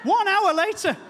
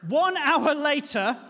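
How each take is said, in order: First: One hour later shouted high and loud, One punched hardest; One hour later thrown out loud in outrage; loud indignant repeat. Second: One hour later, drawn out slow with weight on One; slowed emphasis. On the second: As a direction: let One hour later sink in slowly. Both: Shown as a demonstration.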